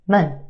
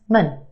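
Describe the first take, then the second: First: The vowel is reduced to a schwa. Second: The vowel is reduced to a schwa.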